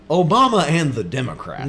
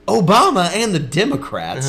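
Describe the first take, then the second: First: Lightly booming talk-radio host impression. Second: Higher, swooping talk-radio host impression; mock radio pundit, big dramatic swings; Glenn Beck. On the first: Brother imitates radio host from childhood, booming radio voice. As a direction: imitate a radio pundit, swooping on the words. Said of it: "in this booming, like, radio perfect voice". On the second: Brother imitates host Dad listened to, booming radio voice. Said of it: "it was the same thing".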